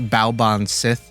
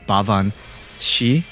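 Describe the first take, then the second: First: The name ends with a 'sith' sound. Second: The name ends with a 'shee' sound. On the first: The speaker calls it wrong. "not not Baoban Sith, ... that's how it's kind of spelled" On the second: The speaker calls it right. "the correct pronunciation is Bavan Shi"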